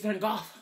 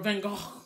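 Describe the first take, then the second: First: The name is said in a plain, anglicized way. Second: The name is said with a strong, throaty Dutch sound. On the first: "It's Van Gogh" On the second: "if you really want to get extra extra Dutch with it"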